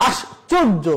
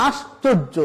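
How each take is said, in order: No difference in how they are said.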